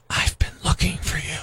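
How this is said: It is spoken in a whisper. It sounds creepy. "a little creepy"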